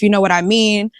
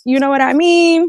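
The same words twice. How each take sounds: First: Said in the usual way. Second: High-pitched put-on voice; playful high impression of someone; Messy Steph. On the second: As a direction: say it in a high, drawn-up mimicking voice. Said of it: "In my Messy Steph voice".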